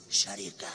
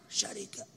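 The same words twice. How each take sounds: First: Said in the usual way. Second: Whispered word. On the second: Shown as a demonstration. Preacher hushing the word شركة to the congregation, whispered. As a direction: whisper the word شركة softly, almost breathless.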